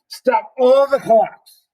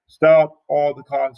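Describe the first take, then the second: First: It is read dramatically and sarcastically. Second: It is read plainly, without drama.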